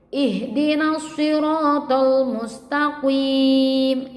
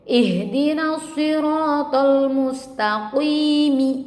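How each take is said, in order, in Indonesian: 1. Frasa itu diakhiri dengan bunyi konsonan mati. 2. Frasa itu diakhiri dengan bunyi vokal pendek.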